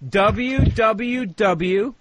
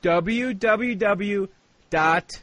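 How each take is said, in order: First: Very slow, drawn out letters; slow spelling. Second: W W W drawn out letter by letter; slow spelling. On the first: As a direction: spell each W out slowly. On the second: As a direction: drag each W out slowly. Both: Acted. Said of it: "you writing this down".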